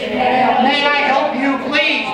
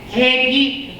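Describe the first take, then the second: First: Every word of the phrase is said clearly. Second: The phrase is slurred into two short syllables. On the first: "Can I get a translation of that"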